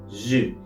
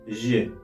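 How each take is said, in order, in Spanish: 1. La vocal se pronuncia ligera y sin acento. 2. La vocal se pronuncia ligera y sin acento.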